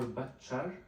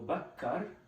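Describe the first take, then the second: First: The middle consonant is a ch sound. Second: The middle consonant is a k sound.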